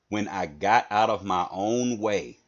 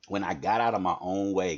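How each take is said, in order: First: It is said very slowly and deliberately. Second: It is said at normal conversational speed.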